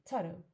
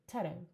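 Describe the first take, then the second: The two takes are said the same way.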